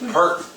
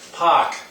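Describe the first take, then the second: First: It is said in a Southern accent. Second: It is said in a Boston accent.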